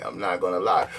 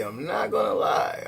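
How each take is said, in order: First: Shouted admission, deep and forceful; hammed-up yell of the same admission; mock shout. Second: Hushed, breathy aside, lower; half-whispered, as a secret to the viewer; mock whisper admitting a fault; whispered confession.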